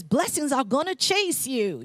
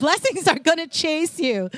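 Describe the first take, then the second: First: Attempted country accent, a little higher and slow; half-hearted country twang, drawn out. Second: Hammed-up country accent, higher pitched; playful bad country twang, pitched up; Joel Osteen. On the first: Preacher quoting Joel Osteen to the congregation, clumsy country accent. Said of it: "that's not a good accent". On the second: Speaker retrying a quote for the congregation, exaggerated country accent. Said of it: "that's not a good accent, but".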